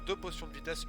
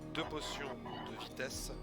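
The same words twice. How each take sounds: First: It is said at normal speed. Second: It is said more slowly.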